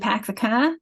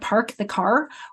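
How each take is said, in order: First: The R sounds are dropped after the vowels. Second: The R sounds are pronounced strongly after the vowels. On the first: "in Boston where you pack the car" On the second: "we might have a much stronger R's"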